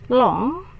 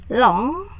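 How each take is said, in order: No difference in how they are said.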